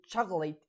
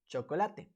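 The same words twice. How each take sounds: First: It is pronounced with English sounds. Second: It is pronounced with Spanish sounds. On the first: "we say chocolate in English" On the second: "in Spanish we say chocolate"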